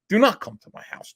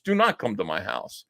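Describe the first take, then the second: First: Higher, imitating a panicked plea; hammed-up frightened begging; mock panic. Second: A hint of a defeated, frightened repeat; mock panic, fading. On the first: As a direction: mimic a panicking man begging. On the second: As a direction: lower and softer, imitating a deflated plea. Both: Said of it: "Vito was actually panicking".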